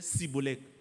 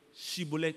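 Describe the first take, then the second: First: The word begins with an 's' sound. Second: The word begins with a 'sh' sound. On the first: This reveals the speaker as an outsider. The speaker calls it wrong. "il disait Cibolek" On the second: This is how the word must be said to pass. The speaker calls it right. "il faut prononcer ce mot-là"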